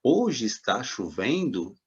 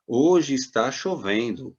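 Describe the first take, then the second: First: "Hoje está chovendo" slow, swinging up on "chovendo"; question intonation. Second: "Hoje está chovendo" read out slowly as a statement. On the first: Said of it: "você vê que tem uma interrogação". ("Hoje está chovendo?" em tom de pergunta) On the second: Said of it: "aí você vai lendo lá". ("Hoje está chovendo" lido devagar como afirmação) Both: Acted.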